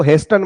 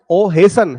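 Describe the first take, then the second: First: "हेस्टन" with the t sounded; mispronunciation demo. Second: "हेसन" with no t sound; s straight into n in "हेसन"; silent t. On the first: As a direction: say "हेस्टन" with an audible t before the n. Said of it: "इसको हेस्टन मत पढ़ना बेटा". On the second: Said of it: "इसका टी जो है silent हो जाएगा". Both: Shown as a demonstration.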